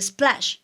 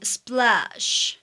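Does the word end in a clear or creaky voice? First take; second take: clear; creaky. First: The word ends in a clear, normal voice. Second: The word ends in a creaky, fried voice. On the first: "No termina splash o sea" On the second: "pone justamente un vocal fry al final de las frases"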